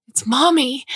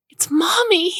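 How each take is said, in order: First: Put-on high, bright, louder child's cry of joy; excited child. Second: Put-on very high, louder gleeful child's shriek; even more excited child. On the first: Older sister telling her sister mom is back, excited high cry. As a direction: shout it like a thrilled little girl. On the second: Older sister repeating the news to her sister, squealing high. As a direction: squeal it, joy spilling over. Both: A narrator's reading.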